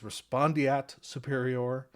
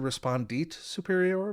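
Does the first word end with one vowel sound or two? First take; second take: two; one. First: The ending has two separate vowels, e then a. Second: The ending has one vowel, sounding like it. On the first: The speaker calls it right. "the correct term, it's Latin" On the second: The speaker calls it wrong. "I don't think that's proper Latin pronunciation"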